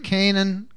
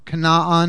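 First: Canaan is said with the usual English pronunciation. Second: Canaan is said with a Jewish pronunciation.

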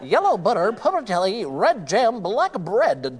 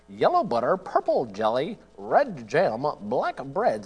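First: It is said very quickly. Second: It is said quickly.

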